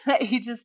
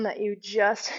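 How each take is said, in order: First: Laughing, breathless. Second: Said in the usual way. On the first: Real, not acted. Instructor retrying her suggestion while laughing, breathless. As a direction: restart the phrase through a winded laugh. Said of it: "I'm out of breath". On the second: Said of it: "yeah, I'm out of breath".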